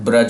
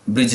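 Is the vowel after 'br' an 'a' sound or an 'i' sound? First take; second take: a; i. First: The vowel after 'br' is an 'a' sound. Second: The vowel after 'br' is an 'i' sound. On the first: The speaker calls it right. "ब्रज होता है" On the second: The speaker calls it wrong. "जो लोग ब्रिज बोलते हैं वो गलत बोल रहे हैं"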